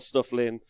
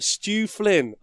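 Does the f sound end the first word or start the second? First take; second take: end first; start second. First: The f sound ends the first word. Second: The f sound begins the second word. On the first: The speaker calls it wrong. "It's not Stuff Lynn" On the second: The speaker calls it right. "I've got it finally"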